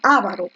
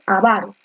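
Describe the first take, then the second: First: The stress falls on the first syllable. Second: The stress falls on the second syllable. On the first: The speaker calls it wrong. "generalmente muchos dicen avaro" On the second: The speaker calls it right. "lo correcto es avaro. Fuerza de voz en la grave"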